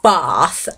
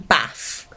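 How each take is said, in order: First: It is said in a Southeast English accent. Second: It is said in a Midlands English accent.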